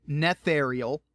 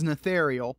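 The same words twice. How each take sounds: First: "Netherial" with a full first syllable, NETH; careful pronunciation. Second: Said in the usual way. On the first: Real, not acted. Podcaster repeating a book title for listeners, "Netherial" carefully sounded out. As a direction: say "Netherial" distinctly as neth-AIR-ee-al.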